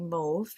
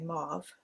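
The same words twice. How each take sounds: First: It is said the Canadian, French-like way. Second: It is said the way people in the US say it.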